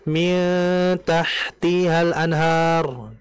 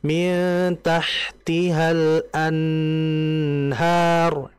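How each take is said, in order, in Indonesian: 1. Bunyi n dipotong terlalu cepat. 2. Bunyi n ditahan jauh terlalu lama. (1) "Terlalu cepat" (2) "itu terlalu lama ya"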